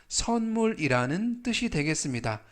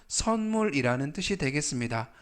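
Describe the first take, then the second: No difference in how they are said.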